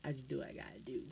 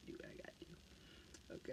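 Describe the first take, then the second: First: Said in the usual way. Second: Whispered echo. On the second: Real, not acted. Repeating her motto to herself, in a whisper. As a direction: whisper it to yourself as an afterthought.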